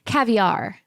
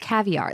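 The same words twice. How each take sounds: First: It is said with a fancy French-style inflection. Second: It is said in a plain English way. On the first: The speaker calls it wrong. "what are you doing with the inflection? What are we in fucking France?" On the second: The speaker calls it right. "It's caviar"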